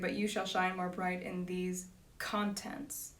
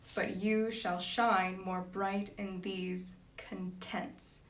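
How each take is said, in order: First: The last word has everyday stress, breaking the rhythm. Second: The last word is stressed to fit the rhythm. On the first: "we would say" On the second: "to fit the line"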